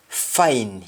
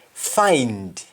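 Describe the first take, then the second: First: FINE, for find, stopping at N; Jamaican pronunciation. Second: FIND with the final D sounded; English-style FIND, full "nd"; English pronunciation. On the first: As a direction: drop the D, just FINE. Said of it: "You only stop at N". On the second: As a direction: finish FIND on a clear D. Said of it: "ends with N D in English". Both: Shown as a demonstration.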